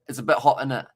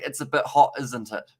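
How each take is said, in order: First: The tag is shortened to 'innit'. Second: The tag is said in full as 'isn't it'. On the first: It sounds casual. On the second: It sounds posh.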